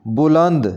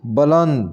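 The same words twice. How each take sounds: First: बुलंद opening on 'bu'; correct pronunciation. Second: बुलंद opening on 'ba'; mispronounced first vowel. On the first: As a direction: say बुलंद as 'bu-land'. (बुलंद के 'ब' पर पेश बोलें) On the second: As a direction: say बुलंद as 'ba-land'. (बुलंद को 'बलंद' जैसा बोलें) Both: Shown as a demonstration. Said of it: "इसको सही ऐसे करके पढ़ेंगे".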